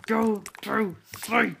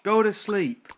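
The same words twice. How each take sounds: First: Slow, drawn-out go to sleep; slow stern command. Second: Louder, higher go to sleep; stern command. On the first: Player slowly ordering the sim baby to sleep. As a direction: spell it out slowly. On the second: Player ordering the crying sim baby to sleep. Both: Real, not acted.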